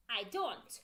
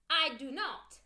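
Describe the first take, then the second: First: "I don't" with do and not run into one word; contracted form. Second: "I do not" with each word said separately, no contraction; full form. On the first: Teacher drilling full forms against contractions, quick contraction. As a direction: clip it down to don't. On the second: Teacher drilling full forms against contractions, careful full form. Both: Shown as a demonstration. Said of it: "when we use don't, doesn't".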